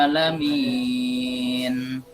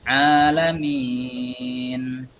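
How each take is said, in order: Both takes have the same delivery.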